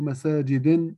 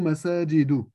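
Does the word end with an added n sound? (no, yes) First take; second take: yes; no. First: The word ends with an added n sound. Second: The word ends without an added n sound. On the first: The speaker calls it wrong. "لا أقول مساجد" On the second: The speaker calls it right. "أقول مساجد"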